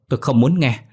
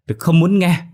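First: Raised, higher-pitched refusal; angry shout. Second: High, loud outburst of refusal; screaming. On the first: Hoa refusing to hear the wife out, angry shout. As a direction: refuse loudly, temper rising. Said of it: "Hoa quát lớn". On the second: Hoa driving the wife from her room, screaming. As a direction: scream it at the peak of rage. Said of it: "Hoa ôm tay la hét". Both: A narrator's reading.

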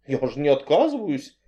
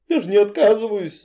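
First: A touch of fright; frightened. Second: High, whiny plea; whining. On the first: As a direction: say it lightly scared. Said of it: "испугалась я". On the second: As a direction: whine it like a scared girl. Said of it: "заныла я". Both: Acted.

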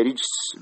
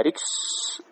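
First: رجس as rijs, a j sound before the s; with a jim. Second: ركس as riks, short 'i' and vowelless kaf; kasra, then sukun. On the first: Teacher giving the variant from Ibn Majah, with a jim. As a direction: say رجس with jim where kaf might stand. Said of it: "هي رجس بالجيم". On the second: Teacher reading out the hadith's word, kasra then sukun. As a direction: say ركس slowly with a clear k before the s. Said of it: "بكسر الراء وسكون الكاف". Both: Shown as a demonstration.

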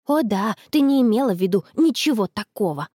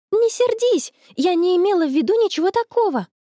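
First: Sarcastic grumble in a level pitch; sulky mocking echo; grumpy. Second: High, urgent plea; high-pitched protest of innocence; pleading apology. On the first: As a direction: grumble it back, unconvinced. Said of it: "буркнула она". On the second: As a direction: plead with an offended friend. Apologising to her offended friend. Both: A narrator's reading.

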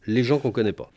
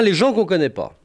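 First: Said in the usual way. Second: Les gens qu'on connaît pas raised as a final title, stress on gens; les gens qu'on connaît pas announced as the last heading, gens hit. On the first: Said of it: "list of four categories". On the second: Shown as a demonstration. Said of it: "Enfin, les gens qu'on connaît pas".

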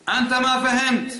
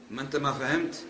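First: Higher, louder and slower, mocking the opponent with "أنت ما فهمت"; mock retort. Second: Said in the usual way. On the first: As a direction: drag out "أنت ما فهمت" in a high, scornful voice. (تقليد ساخر بصوت أعلى وأبطأ لـ"أنت ما فهمت")

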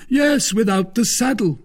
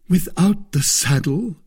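First: "Yes, without the saddle." very high, falling at the end; emphatic confirmation. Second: "Without the saddle?" high with a rising end; questioning. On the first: Porthos answers Aramis emphatically. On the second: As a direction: ask "Without the saddle?" as a query. Aramis questions Porthos's sale. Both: A narrator's reading.

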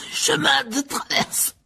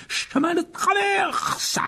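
First: High, slow, choked-out stammer; stammered through coughs. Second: Very high, slow, drawn-out cry; calling out. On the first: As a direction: force the address out while choking. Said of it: "balbutia-t-il en toussant". (bredouillé en toussant) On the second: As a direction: shout the destination into the flames. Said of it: "en criant". (crié, très étiré) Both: Acted.

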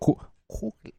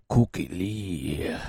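First: High, hushed, broken attempt; tentative squeaky put-on voice; failed character voice. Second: Scratchy smoker radio persona; put-on radio alter ego; Cookie Lee. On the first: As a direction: try a high character voice and falter. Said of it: "I can't do it in that voice". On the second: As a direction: slip back into the smoky host voice. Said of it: "I have to do it like". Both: Shown as a demonstration.

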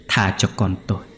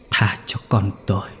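First: Said in the usual way. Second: Breathless whispered begging, barely voiced; dying man's last whisper; whispered plea. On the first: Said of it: "thều thào không ngừng cầu xin". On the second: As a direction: rasp it out like a dying man. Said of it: "thều thào".

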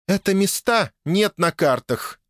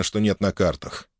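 First: High and slow, with "нет" pressed hard; stress on нет. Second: Said in the usual way. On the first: A narrator's reading. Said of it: "эльфийка произнесла с нажимом".

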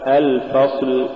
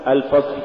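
First: Said in the usual way. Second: الفصل with the final ل devoiced and lost; faulty lam. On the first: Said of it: "والصواب". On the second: Shown as a demonstration. Teacher showing a recitation error, lost final lam in الفصل. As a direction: let the end of الفصل die away after ص. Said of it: "تقرأ لحنا".

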